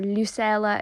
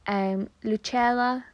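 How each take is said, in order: First: The name is said with English pronunciation. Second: The name is said without English pronunciation.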